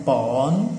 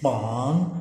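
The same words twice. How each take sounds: Both takes have the same delivery.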